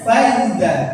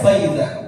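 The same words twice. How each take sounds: First: The middle consonant is a plain 'z' sound. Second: The middle consonant is a soft 'dh' sound. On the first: The speaker calls it wrong. "Jangan dibaca fa'idza" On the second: The speaker calls it right. "Jadi baca fa'idza"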